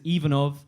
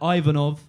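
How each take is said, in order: First: The name is said with Finnish pronunciation. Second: The name is said with English pronunciation. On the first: "in Finland the pronunciation is" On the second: "Here, people tend to pronounce it a bit more like"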